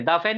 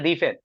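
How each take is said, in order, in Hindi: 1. 'The' को छोटे 'uh' स्वर से बोला जाता है। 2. 'The' को लंबे 'ee' स्वर से बोला जाता है। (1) "दा फैन या दी फैन?" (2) "दा फैन या दी फैन?"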